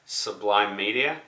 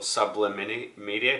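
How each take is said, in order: First: "Sublime" as two syllables, long i in the second; pronounced as Sublime. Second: "Sublimini" with short i sounds, like subliminal; alternative pronunciation. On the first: Vlogger giving the channel's name, pronounced "Sublime". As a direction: say "Sublime" slowly, ending like "lime". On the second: Vlogger offering another reading of the channel name, as "Sublimini". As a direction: stretch the name out to "Sublimini", extra syllables. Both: Shown as a demonstration. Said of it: "depending on how you wanna pronounce it".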